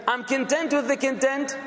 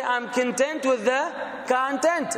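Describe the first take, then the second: First: "content" both times stressed on the second syllable, con-TENT; wrong stress. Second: Slow, con-TENT then CON-tent; first "content" on -TENT, second on CON-; correct stress. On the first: Teacher showing another wrong stress on "content". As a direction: model the mistake, con-TENT con-TENT. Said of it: "doesn't click". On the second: Teacher modelling the right stress on "content" slowly. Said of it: "You have to say". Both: Shown as a demonstration.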